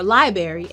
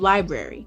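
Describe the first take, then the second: First: The sounds are switched around in a dialect variant. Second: The sounds are in standard order. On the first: "or library instead of library" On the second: "instead of library"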